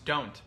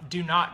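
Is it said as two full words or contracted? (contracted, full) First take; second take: contracted; full. First: The words are merged into one short syllable. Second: Both words are said fully and separately. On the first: "Do not becomes don't" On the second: "we combine words"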